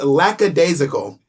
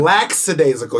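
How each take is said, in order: First: No extra s or x sound is added. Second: An extra s or x sound is added. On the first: The speaker calls it right. "It's lackadaisical. I pronounced that absolutely correctly" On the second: The speaker calls it wrong. "you're saying lackadaisical. You're adding an S or an X that doesn't exist"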